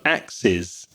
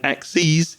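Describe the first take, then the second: First: It is pronounced as the plural of axe. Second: It is pronounced as the plural of axis. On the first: It means more than one cutting tool. "axes is the plural of axe, the tool" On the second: It means more than one axis. "axes is the plural of axis"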